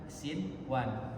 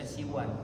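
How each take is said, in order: First: The n sound is pronounced clearly before w. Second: The n sound is dropped before w. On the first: The speaker calls it right. "kan sinwan" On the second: The speaker calls it wrong. "tidak tidak dibaca siwan"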